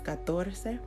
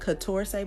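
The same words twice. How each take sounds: First: It is said with Spanish sounds. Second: It is read with English sounds. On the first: The speaker calls it right. "but it's catorce" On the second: The speaker calls it wrong. "it looks like catorce"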